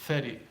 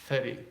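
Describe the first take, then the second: No difference in how they are said.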